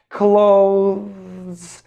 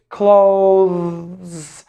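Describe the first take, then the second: The two takes are said the same way.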